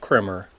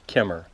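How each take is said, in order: First: An r sound follows the first k. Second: No r sound follows the first k. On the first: The speaker calls it wrong. "not Krimmer" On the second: The speaker calls it right. "It is Kimmer"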